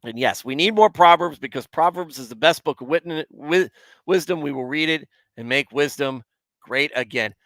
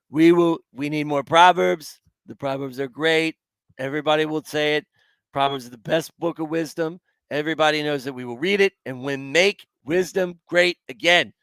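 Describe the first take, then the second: First: Said in the usual way. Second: Badly faked politician's rally voice; put-on campaign-speech voice, slightly raised; terrible Trump accent. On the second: Shown as a demonstration. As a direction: do a hammed-up presidential impression. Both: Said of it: "That's my best terrible Trump accent".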